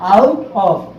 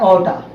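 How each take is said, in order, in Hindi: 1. दो अलग शब्द, 'of' साफ़ सुनाई देता है। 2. दोनों शब्द मिलकर एक छोटा 'outta' बन जाते हैं।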